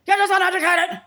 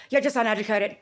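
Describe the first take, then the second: First: High, loud scornful jeer; mocking shout. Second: Said in the usual way. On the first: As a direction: throw the insult back as a yell. Mocking what he was told.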